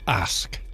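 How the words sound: It is said in a Northern English accent. "or if you're Northern, you just say ask"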